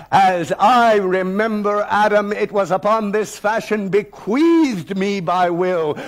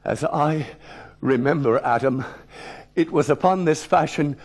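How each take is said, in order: First: Slow, louder, commanding recital; thundering defiance. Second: Said in the usual way. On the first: Retold or imitated. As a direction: declaim it like a challenge. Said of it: "I read with thunder and assurance and command". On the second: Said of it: "So I tried".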